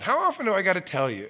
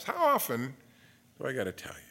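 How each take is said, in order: First: Said in the usual way. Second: Fading to a whisper. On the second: Shown as a demonstration. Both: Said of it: "the Lord says that to you".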